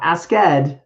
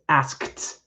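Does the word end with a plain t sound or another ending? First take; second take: other ending; t sound. First: The ending is not said as a t sound. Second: The ending is said as a t sound. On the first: The speaker calls it wrong. "not asked" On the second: The speaker calls it right. "it actually is a T sound because the verb ends in a K"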